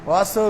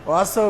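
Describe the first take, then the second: No difference in how they are said.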